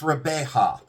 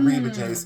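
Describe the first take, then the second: First: The name ends without an s sound. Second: The name ends with an s sound. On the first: The speaker calls it right. "So it's pronounced Rebeja" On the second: The speaker calls it wrong. "It's not Reba J's"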